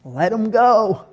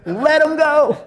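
First: A hint of Jesus, relaxed and easy; Jesus, lightly voiced. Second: Jesus urging, lifted up high; Jesus insisting. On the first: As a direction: wave it off gently as Jesus. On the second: Retold or imitated. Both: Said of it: "And Jesus is like".

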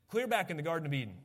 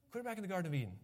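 First: Quick run through "Clear back in the Garden of Eden"; quick statement. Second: "Clear back in the Garden of Eden" repeated much softer; soft echo. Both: Shown as a demonstration.

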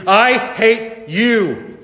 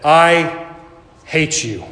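First: High, very drawn-out cry, word by word; screamed hatred. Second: Said in the usual way. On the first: A narrator's reading. Lily screaming at the killer who took her sisters, drawn-out cry. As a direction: stretch each word into a raised cry. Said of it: "she screamed".

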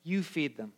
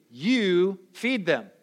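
First: Quiet. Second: "You feed them." slow, each word weighed, stress on "feed"; slow emphatic. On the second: Jesus telling the listener, slow with "feed" stressed. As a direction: lean on "feed", slowly. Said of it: "Jesus is saying to you". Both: Retold or imitated.

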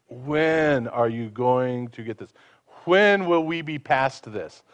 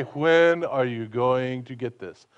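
First: Slow, sighing, fed-up parent; tired scolding, slowed right down; weary exasperation. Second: Slow, weary, exasperated; mock impatient parent; fed-up scolding. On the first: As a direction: drag it out like you've explained it a hundred times. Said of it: "with the attitude of". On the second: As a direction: sigh the question out as if fed up. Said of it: "he doesn't say". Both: Shown as a demonstration.

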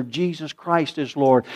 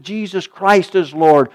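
First: Said in the usual way. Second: Christ hit hard, loud and slow; "Christ" shouted slowly like a verdict; 1 booming emphasis on Lord. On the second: Acted. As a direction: proclaim "Christ" with full force, drawn out. Preacher thunders the creed.

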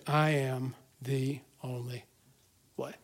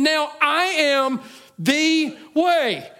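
First: Low, soft and slow, weight on I; hushed quote. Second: Slow, high, loud proclamation of way; proclaimed quote. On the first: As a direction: lower and quieten, drag out "I am the only way". Quoting Jesus after long pause. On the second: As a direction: draw out "Now I am the way" slowly, loud and high, landing hard on way. Quoting Jesus at the climax. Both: Acted.

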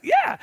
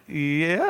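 First: Yeah squeaked way up high; a sudden squeal of delight; gleeful yeah. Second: Said in the usual way. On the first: Retold or imitated. Pastor squealing yes to the drive-thru lady, high. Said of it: "I was like". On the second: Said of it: "she's like".

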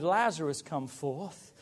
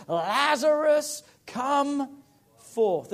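First: Said in the usual way. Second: Drawn-out high shouted Lazarus; a preacher booming the dead man's name; loud call. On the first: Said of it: "it was a good job he shouted". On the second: Acted. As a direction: call him out of the tomb, long and loud. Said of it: "cried out with a loud voice".

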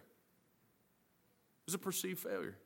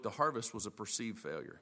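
First: "perceived failure" said softer and very slowly; slow quiet emphasis. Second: Said in the usual way. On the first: Shown as a demonstration. Preacher repeating the point for the congregation, slow and hushed.

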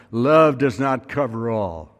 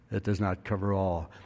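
First: "Love does not cover all" said slowly, with the weight on "Love"; slow, deliberate stress on "Love"; emphatic declaration. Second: "It does not cover all" dropped much softer and lower; quiet restatement. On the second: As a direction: let "It does not cover all" fall back to a soft, low echo. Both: Shown as a demonstration.

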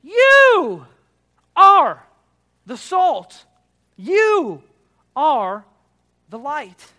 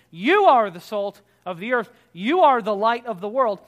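First: "You" and "are" each punched high and loud with pauses; emphatic. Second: "You" put first and hit loud; stress on you. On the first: Pastor acting out Jesus' emphasis, "You" hit high and loud. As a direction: slowly hammer out "You", "are", word by word. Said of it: "Jesus is emphasizing something". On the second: Pastor showing the congregation the emphasis, "You" stressed. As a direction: lean hard on "You" at the start. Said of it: "In the you, Y O U". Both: Shown as a demonstration.

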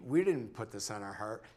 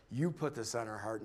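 First: "we" pushed up in pitch; stress on WE. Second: "You" leaned on, then falling away; stress on YOU. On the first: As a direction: set "we" apart with emphasis. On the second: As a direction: hand it over with weight on "You". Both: Retold or imitated. Contrasting who put it there.

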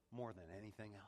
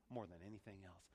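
No difference in how they are said.

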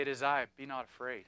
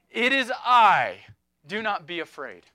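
First: Softer, lower, gentle words; Jesus speaking gently to a troubled heart, softly; soft reassurance. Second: Jesus calling to the disciples, loud then settling; bold reassurance. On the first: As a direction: say it like a quiet comfort to one person. Preacher voicing Jesus gently. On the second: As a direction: proclaim it over the storm, then soften. Preacher voicing Jesus in storm. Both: Acted.

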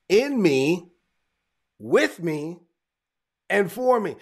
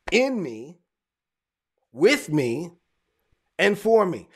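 The two takes are said the same way.

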